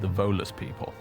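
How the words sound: The stress falls on the word Volus. Volus works like a describing word. "he said the Volus people? Like the mole people"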